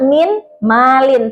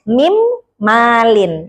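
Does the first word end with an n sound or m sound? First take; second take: n sound; m sound. First: The first word ends with a clear n sound. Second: The n merges into the following m sound. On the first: This is how it is written. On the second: This is how it is read aloud. "tapi dibacanya"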